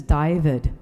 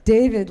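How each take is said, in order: First: Put-on name in a light New Zealand accent. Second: Said in the usual way. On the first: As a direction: say it like a Kiwi sat-nav. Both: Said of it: "speaks with a New Zealand accent".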